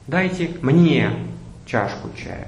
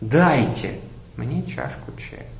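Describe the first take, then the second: First: The word мне carries the main stress. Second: The word дайте carries the main stress. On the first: Others were served but the speaker was not. "Следующий вариант" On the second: The speaker is tired of waiting to be served. "Попробуем поставить ударение на всех словах по очереди"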